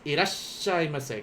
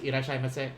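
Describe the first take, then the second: First: A brief pause holds before the double s. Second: The word runs straight through with no pause. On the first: The speaker calls it right. "see how I'm like pausing there" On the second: The speaker calls it wrong. "It's not just irashaimase"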